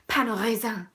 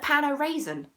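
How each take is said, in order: First: It is said with a French pronunciation. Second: It is said with an English pronunciation. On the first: The speaker sounds educated and a bit pretentious. "sound very middle class, pretentious, but also quite educated" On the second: The speaker sounds plainly English. "sound English"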